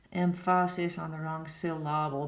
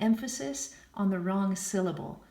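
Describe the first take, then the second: First: Emphasis said em-FAH-sis and syllable said sil-LAH-ble; stress on wrong syllables. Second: Said in the usual way. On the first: Retold or imitated. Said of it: "sounded like idiots when they said it".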